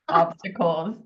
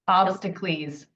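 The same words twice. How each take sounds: First: The ending is said in the usual plain way. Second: The ending is said like the end of Hercules.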